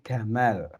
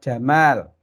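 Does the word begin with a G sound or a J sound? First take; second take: G; J. First: The word begins with a hard G sound. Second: The word begins with a J sound. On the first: "kalau orang Mesir ... menjadi Gamal" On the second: "huruf jim"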